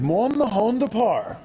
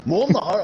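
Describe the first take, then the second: First: Said in the usual way. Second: A quick, half-hearted Scottish accent. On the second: Shown as a demonstration. Reading a viewer's comment, attempting a Scottish accent. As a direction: try the line in a Scottish accent, then give up. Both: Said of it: "I'll try and do it in a Scottish accent".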